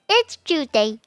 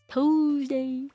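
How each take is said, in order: First: It starts with a ch sound, like chewsday. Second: It starts with a plain t sound, like two. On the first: "Nah. No, no, no" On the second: "Not two. I don't know how you say two"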